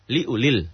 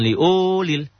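First: The u vowel is kept short. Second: The u vowel is drawn out long. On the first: The speaker calls it right. "liulil gitu" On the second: The speaker calls it wrong. "jangan liulil"

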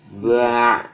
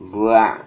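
First: The syllable is drawn out too long. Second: The syllable is kept brief and clipped. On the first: The speaker calls it wrong. "ini terlalu panjang" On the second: The speaker calls it right. "Ini cukup"

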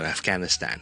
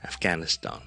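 First: The last vowel is the flat 'cat' vowel. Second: The last vowel is a broad open 'ah'. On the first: "将后面嗰个响音都读埋做am 嘅" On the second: "英国人通常会读成係aw ... 呢个就係BBC 英文嘅读法"

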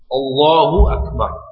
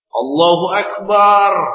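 First: No vowel is drawn out unusually long. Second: The final vowel of Akbar is drawn out. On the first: God is the greatest. The speaker calls it right. "Ini Allahu Akbar" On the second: It likens God to drums. The speaker calls it wrong. "Allah laksana gendang"

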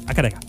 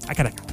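First: It is run together as one word. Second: The same.

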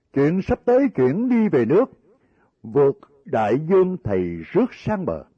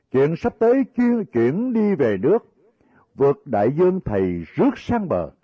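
The two takes are said the same way.

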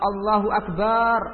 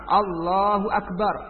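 First: The second syllable of Akbar is drawn out long. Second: The second syllable of Akbar is short. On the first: It refers to drums, a musical instrument. The speaker calls it wrong. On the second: God is the greatest. The speaker calls it right. "harus tepat"

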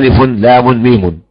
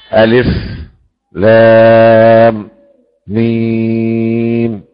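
First: The letter names run together without pauses. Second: Short pauses separate each letter name. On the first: The letters are treated as joined in flow. "ولو كانت مبنية على الوصل لقلنا" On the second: The letters are based on stopping, not joining. "ابو جعفر يسكت فيقف على اخر الحرف"

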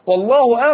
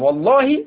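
First: The word ends with a u vowel. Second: The word ends with an i vowel. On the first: God is the subject of the sentence. "والله بالرفع لأن هنا الكلام عن الله" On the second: It is an oath. "الأولى مخفوضة لأنها قسم"

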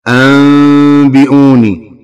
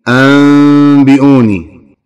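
Both takes have the same delivery.

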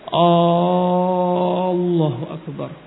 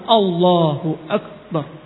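First: The vowels are stretched out long. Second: The vowels are kept short and direct. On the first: The speaker calls it wrong. "panjangkan. Ini suatu kesalahan" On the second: The speaker calls it right. "langsung Allahu Akbar. Nah, tanpa memanjangkan"

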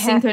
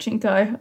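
First: The word begins with an 's' sound. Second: The word begins with a 'ch' sound. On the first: The speaker calls it right. "it's Cinco" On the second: The speaker calls it wrong. "not Cinco"

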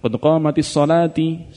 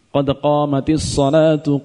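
First: The last word ends with an i vowel. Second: The last word ends with a u vowel. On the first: The speaker calls it wrong. "jangan qad qamatis shalati, salah" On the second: The speaker calls it right.

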